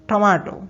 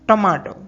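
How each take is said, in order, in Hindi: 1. यह शब्द ब्रिटिश लहजे में बोला गया है। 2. यह शब्द ब्रिटिश लहजे में बोला गया है।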